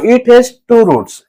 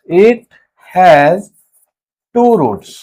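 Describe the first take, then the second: First: Slow, steady statement of the fact. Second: Each word set apart by a pause, "it", "has", "two roots"; dictating word by word. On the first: Teacher telling students the rule, said slowly. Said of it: "teacher states then dictates fact". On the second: Teacher dictating to students for notes, words spaced apart. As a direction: dictate it slowly so students can write. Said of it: "teacher dictates fact word by word". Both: Shown as a demonstration.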